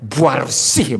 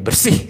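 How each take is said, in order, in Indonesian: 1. Kata itu diucapkan dengan penekanan kuat dan panjang. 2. Kata itu diucapkan biasa saja, tanpa penekanan tambahan.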